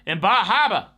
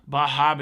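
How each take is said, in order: First: It is said in a put-on Boston accent. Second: It is said in the speaker's plain accent.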